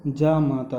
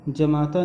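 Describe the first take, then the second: First: जामाता with a long first aa, jaa-maata; correct long aa. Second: जमाता with a short first a, ja-mata; wrong short a. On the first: Teacher giving the correct form, जामाता with long jaa. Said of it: "जामाता होता है". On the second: Teacher showing the common mistake, जमाता with short ja. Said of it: "जमाता नहीं होता". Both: Shown as a demonstration.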